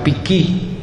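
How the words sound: The R is dropped and the next consonant doubled. This is how the word is said locally in the speaker's area. "la R non la pronunciamo, la associamo alla consonante successiva raddoppiandola"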